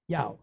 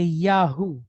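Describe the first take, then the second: First: It is said as one syllable, yow. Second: It is said as two syllables, ya-hoo. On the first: The speaker calls it right. "it phonetically becomes Yow, like Y O W" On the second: The speaker calls it wrong. "We we see it and we say Yahoo, but that is not a natural occurring sound in the Hebrew language"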